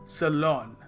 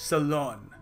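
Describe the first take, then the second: Both takes have the same delivery.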